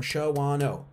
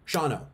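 First: "Shawano" as sho-WAH-no; three syllables. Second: "Shawano" as SHAW-no; two syllables. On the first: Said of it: "How many syllables is Shawano?". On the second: Showing how brains simplify things, "Shawano" shortened to SHAW-no. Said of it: "Two syllables". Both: Shown as a demonstration.

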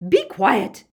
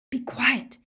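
First: Very loud, high, furious shout; screamed command. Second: Firm, raised-pitch command, short of screaming; urgent hushing. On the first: Bellatrix silences her protesting sister, screamed command. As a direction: scream it to cut someone off. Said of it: "but Bellatrix screamed". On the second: Harry hushes his yelling friend, urgent firm command. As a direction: cut in urgently to silence a friend. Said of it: "Harry said". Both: A narrator's reading.

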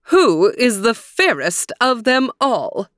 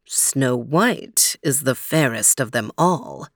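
First: Haughty, commanding high queen voice; demanding queen. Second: Low, slow otherworldly mirror voice; magic mirror voice. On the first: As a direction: demand an answer like a vain queen. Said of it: "she demanded". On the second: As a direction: intone it like an ancient spirit. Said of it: "said the magic mirror". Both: Acted.

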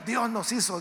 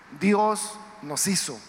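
First: Said in the usual way. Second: "Dios nos hizo" drawn out slowly, "Dios" weighted; slow emphasis. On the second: Shown as a demonstration. Preacher stressing creation to listeners: slow, weighted words. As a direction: drag each word out for weight.

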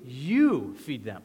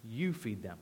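First: You drawn long and punched loud; slow, with a big swooping emphasis on You; stress on You. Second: Low, soft instruction; quiet, lowered command; matter-of-fact command. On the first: Shown as a demonstration. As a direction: lean hard on You, stretching it out. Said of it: "the emphasis is on you". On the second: Retold or imitated. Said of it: "makes a rather ridiculous request".

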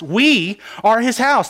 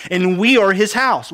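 First: We are his house said slowly, We leaned on; stress on We. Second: Said in the usual way. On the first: Shown as a demonstration. Preacher to church men, slow with weight on We. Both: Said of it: "There's the emphasis".

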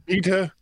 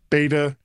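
First: "beta" as BEE-tuh; long-e pronunciation. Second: "beta" as BAY-tuh; long-a pronunciation. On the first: Host comparing the two versions, "beta" as BEE-tuh. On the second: Host comparing the two versions, "beta" as BAY-tuh. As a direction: say "beta" with an ay vowel. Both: Shown as a demonstration. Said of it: "So it's".

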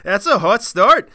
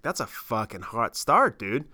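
First: Loud, slow, hammed-up Canadian accent; exaggerated Canadian accent. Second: Put-on accidental Canadian accent. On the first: Shown as a demonstration. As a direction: play up the Canadian accent, drawn out. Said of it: "don't know why I went Canadian there". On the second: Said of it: "I just sounded like Canadian there".

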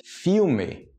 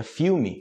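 First: "Filme" ending in a drawn-out "meh"; spelled-out pronunciation. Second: "filme" ending in "mee", "FEW-mee"; everyday pronunciation. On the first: Teacher reading the written form, "Filme" ending in "meh". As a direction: say "Filme" slowly with final "eh". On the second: Teacher giving the spoken form, "filme" ending in "mi". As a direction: close the last E of "filme" to "ee". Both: Shown as a demonstration. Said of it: "seria filme".

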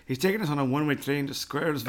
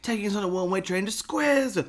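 First: Said in the usual way. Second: Beatnik dad voice. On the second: Retold or imitated. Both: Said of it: "what does he say?".

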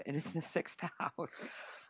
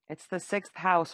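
First: "It is the sixth house" slow and hushed, every word weighted; emphatic restatement. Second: Said in the usual way. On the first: Real, not acted. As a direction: lean on "is" and slow right down. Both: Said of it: "repeats for emphasis".

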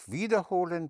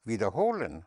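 First: "wiederholen" with WIE high and stressed; stress on the prefix. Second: "wiederholen" with light WIEDER and stress on HO; stress on the stem. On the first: Teacher contrasting two German words, this one stressed on WIEDER. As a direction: hit "wieder" high, fall on "holen". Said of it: "not wiederholen, but wiederholen". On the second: Teacher contrasting two German words, this one stressed on HOLEN. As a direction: skim "wieder" and swell on "holen". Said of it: "but wiederholen". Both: Shown as a demonstration.

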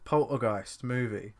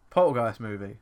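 First: Slow, spelled-out command to the phone; retry, slower, for voice search; slow repeat for the phone. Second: Loud voice command into a phone; voice search command. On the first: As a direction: say it slowly so the phone gets it. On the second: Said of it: "Just search movie". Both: Real, not acted.

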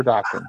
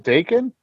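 First: "Daken" said DOCK-en; first vowel of "Daken" open, as in "dock"; Daken as DAH-ken. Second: "Daken" said DAY-ken; first vowel of "Daken" as in "day"; Daken with long A. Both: Shown as a demonstration. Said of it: "I think it's said both ways".

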